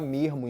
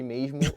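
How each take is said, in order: First: The middle consonant is breathy, like an h. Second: The middle consonant is a hissed s sound. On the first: "um carioca que fala mermo" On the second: "em vez de mesmo"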